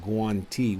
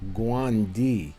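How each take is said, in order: First: The middle consonant is a crisp T sound. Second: The middle consonant is a soft D sound. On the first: This is how standard Italian says it. "in Italian, they pronounce them Guanti with the T" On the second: This is how the dialect back in the States says it. "us as singing dialect, we used to pronounce them Guandi"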